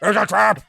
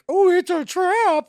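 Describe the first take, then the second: First: It is said in Admiral Akbar's voice. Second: It is said mimicking Leia's voice.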